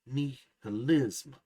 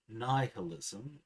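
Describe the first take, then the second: First: "nihilism" as nee-huh-LIZM, slow, loud on the last syllable; nativized Indonesian pronunciation. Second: "nihilism" the English way, first syllable like "nigh"; English pronunciation. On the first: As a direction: open "nihilism" with "nee" and punch the final "lism". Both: Shown as a demonstration. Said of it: "there's nativized pronunciation".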